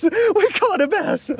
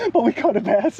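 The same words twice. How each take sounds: First: High, drawn-out happy cry; excited. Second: Said in the usual way. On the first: Real, not acted. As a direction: stretch it out with delight.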